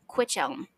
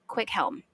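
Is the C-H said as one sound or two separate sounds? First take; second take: one sound; two sounds. First: The C and H blend into one sound. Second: The C and H are two separate sounds. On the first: The speaker calls it wrong. "they want to say Quichelm" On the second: The speaker calls it right. "we have to pronounce the C and H separately"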